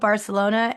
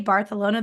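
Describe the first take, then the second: First: The 'c' is said as a plain 's' sound. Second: The 'c' is said as a 'th' sound. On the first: It is the everyday English way to say it. "I always just stick with Barcelona" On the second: It sounds like putting on a Spanish pronunciation. "they're knowing I'm faking it"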